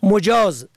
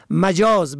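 First: مجاز as "mujāz"; rounded "u" after the m in مجاز; damma on first letter. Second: مجاز as "majāz"; fatha on first letter. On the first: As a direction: say مجاز as mu-jāz. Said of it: "به ضم اول". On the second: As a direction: open "a" after the m in مجاز. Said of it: "به فتح اول". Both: Shown as a demonstration.

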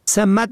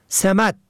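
First: سمت as one-syllable "samt"; fatha, then sukun. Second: سمت as "semat"; short "e", then "a" in سمت; kasra, then fatha. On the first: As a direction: open "a", no vowel after the m in سمت. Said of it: "به فتح اول و سکون دوم". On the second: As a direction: say سمت as se-MAT. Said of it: "به کسر اول و فتح دوم". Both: Shown as a demonstration.

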